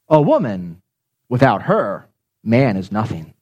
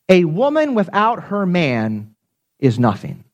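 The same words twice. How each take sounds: First: Pauses come after woman and after her. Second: It is said smoothly without internal pauses.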